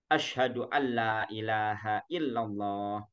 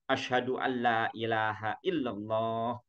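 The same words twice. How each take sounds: No difference in how they are said.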